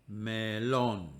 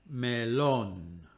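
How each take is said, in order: No difference in how they are said.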